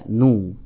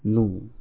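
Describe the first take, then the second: First: The syllable is said at full volume. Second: The syllable is said faintly and quietly. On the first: "Suara nun dhammah dibaca nu" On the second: "namun suaranya lirih"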